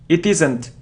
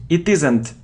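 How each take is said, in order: No difference in how they are said.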